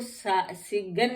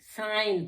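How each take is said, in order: First: A g sound is pronounced before the n. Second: No g sound is pronounced before the n. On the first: The speaker calls it wrong. "हम इसको सिगन नहीं पढ़ते हैं" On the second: The speaker calls it right. "साइन पढ़ते हैं"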